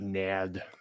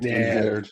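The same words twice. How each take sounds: First: It is said with a French accent. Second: It is said in a plain voice.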